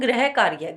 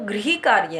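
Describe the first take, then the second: First: The first syllable is said as 'grah'. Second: The first syllable is said with a 'ri' sound. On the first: The speaker calls it wrong. "कुछ जो विद्यार्थी उसको बोलते हैं ... गृह नहीं है वो" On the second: The speaker calls it right. "उसमें री की मात्रा है"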